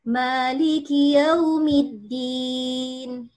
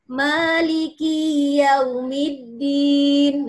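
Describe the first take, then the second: First: The vowel in ki is short. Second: The vowel in ki is drawn out long. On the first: The Master of the Day of Judgment. The speaker calls it right. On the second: The Day of Judgment is my master. The speaker calls it wrong.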